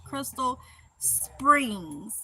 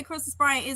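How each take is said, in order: First: Very slow, separated "Crystal ... Springs"; over-careful "Springs", each word set apart; standard careful pronunciation. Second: "Springs" said like "Spraing", run into "Crystal"; casual local "Crystal Springs", vowel opened wide; hometown pronunciation. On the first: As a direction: say "Springs" with a short, clear "i" as in "ring". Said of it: "I know Cry". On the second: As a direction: say "Springs" with a broad Mississippi "ai" vowel. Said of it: "we say Crystal Springs". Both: Shown as a demonstration.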